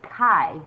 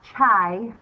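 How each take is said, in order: First: The word begins with a k sound. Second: The word begins with a ch sound. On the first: The speaker calls it right. "I said chi" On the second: The speaker calls it wrong. "not chai"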